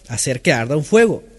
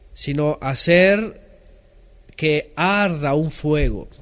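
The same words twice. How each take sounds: First: "Hacer que arda un fuego" said again a bit louder, leaning on "fuego"; repeated for emphasis. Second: "sino hacer que arda un fuego" spelled out slowly, word by word; slow emphasis. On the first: Preacher repeating the key phrase to congregation, firmer stress. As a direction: hammer the phrase home once more, landing on "fuego". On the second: Preacher explaining to congregation, slow deliberate emphasis. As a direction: lay each word down slowly to teach the meaning. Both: Shown as a demonstration.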